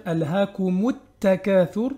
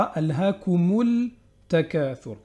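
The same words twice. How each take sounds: First: Alhaakumut takathur with the l silent, t doubled; assimilated lam. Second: Alhaakumul takathur with a sounded l; wrong pronounced lam. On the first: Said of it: "on va dire". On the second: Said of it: "et non pas". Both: Shown as a demonstration.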